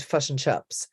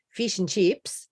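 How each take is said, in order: First: Kiwi "fish and chips" as "fush and chups"; New Zealand centred short i; New Zealand accent. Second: Australian "fish and chips" with tight ee-like vowels; Australian short i, raised; Australian accent. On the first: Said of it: "and the New Zealand". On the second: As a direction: say it Aussie, close to "feesh and cheeps". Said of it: "with the Australian fish and chips". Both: Shown as a demonstration.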